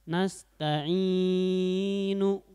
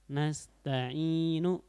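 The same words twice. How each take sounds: First: The long vowel is held beyond two beats. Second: The long vowel is held for two beats. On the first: The speaker calls it wrong. "tidak boleh ya, karena kelebihan ya" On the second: The speaker calls it right. "itu matobi'inya"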